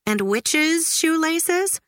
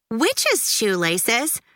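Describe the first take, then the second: First: High, slow, puzzled question rising; a puzzled mother; Mom wondering. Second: Slow, drawn-out disbelieving repeat; astonished kid repeating it; incredulous echo. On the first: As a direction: Mom offering it as a guess. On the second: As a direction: say it like the strangest thing ever. Judy echoes in disbelief. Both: A narrator's reading.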